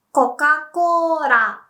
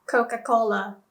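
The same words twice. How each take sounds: First: "Coca-Cola" slow and high as "koka kōra"; Japanese pronunciation. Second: Said in the usual way. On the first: Shown as a demonstration. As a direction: say "Coca-Cola" loudly as "ko-ka-koo-ra". English then Japanese brand demo.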